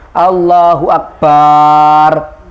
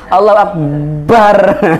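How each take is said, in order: First: The vowel after b is drawn out long. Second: The b sound is doubled and held. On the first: "tidak boleh memanjangkan ba pada kata akbar. Misalnya Allahu Akbar, tidak sah" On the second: "tidak mentasdid ba ... Allahu Akbar memaksa gitu ya"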